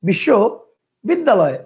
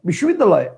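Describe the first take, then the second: First: The word is broken into two separate chunks. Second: The word is said in one unbroken chunk. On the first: "কয়টা হইলো? দুইটা।" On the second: "একবারে ... একটা।"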